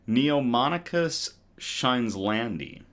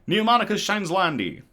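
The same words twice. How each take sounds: First: The name is said slowly and carefully. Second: The name is said very quickly.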